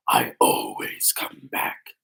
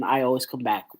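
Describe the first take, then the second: First: Much lower, slow villain catchphrase voice; William Afton. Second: Said in the usual way. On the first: Acted. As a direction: attempt an iconic game villain, drawn out and deep. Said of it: "William Afton's voice with the accent".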